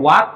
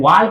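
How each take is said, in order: First: The L sound is left silent in the word. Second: The L sound is pronounced in the word. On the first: The speaker calls it right. "एल silent होता है तो इसको वाक पढ़ा जाता है" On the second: The speaker calls it wrong. "जिसको पढ़ने का तरीका पता नहीं है तो वो डायरेक्ट इसको वाल को पढ़ेगा"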